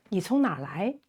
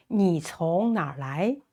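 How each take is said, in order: First: 你从哪儿来 run together briskly; natural-speed repeat. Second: 你从哪儿来 spaced out word by word; careful model. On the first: Teacher repeating where are you from, at natural speed. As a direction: say the whole question in one quick flow. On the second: Teacher modelling where are you from, carefully spaced. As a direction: model the question carefully for learners. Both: Shown as a demonstration.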